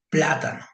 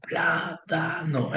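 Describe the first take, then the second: First: Said in the usual way. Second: Plátano said very slowly, stress on PLÁ; Plátano drawn out slowly to show where the accent falls; slow syllable-by-syllable. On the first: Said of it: "por ejemplo". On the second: Shown as a demonstration. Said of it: "aquí no vas a tener bronca".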